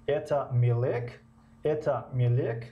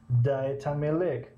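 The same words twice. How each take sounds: First: "Мелек" rising at the end, as a question; question intonation. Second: Affirmative statement, "Мелек" falling at the end; answer intonation. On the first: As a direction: ask it, lifting the last syllable of "Мелек". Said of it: "як нафар мепурсад". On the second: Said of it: "ба ном ҷавоб диҳем". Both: Shown as a demonstration.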